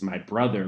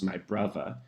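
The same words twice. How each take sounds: First: Brother is said with a TH sound. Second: Brother is said with a V sound.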